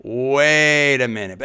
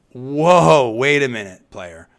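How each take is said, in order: First: Slow, deliberate "Wait a minute" with each word weighted; drawn-out emphasis. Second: Louder, mock-indignant "Whoa, wait a minute"; talk show host emphasis. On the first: Acted. Host repeating his objection to the reporter, slow and pointed. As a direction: stretch it out to make them stop and think. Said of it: "that's the talk show host and me coming out". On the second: Host stopping a reporter's remark, a brisk indignant halt. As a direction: pull the guest up short like a talk show host. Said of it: "that's my emphasis".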